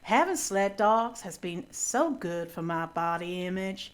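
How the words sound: It is read in a put-on American accent.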